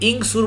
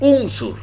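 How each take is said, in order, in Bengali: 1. শব্দটি i স্বরধ্বনি দিয়ে শুরু হয়। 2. শব্দটি u স্বরধ্বনি দিয়ে শুরু হয়। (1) "এখানে আপনি ইংসুর বলবেন না" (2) "এখানে আপনাকে বলতে হবে উংসুর"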